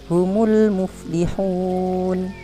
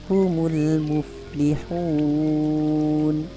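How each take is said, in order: First: The long vowel is held for two beats. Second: The long vowel is held for six beats. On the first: "Bapak baca dua harokat" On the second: "yang ketiga enam harokat"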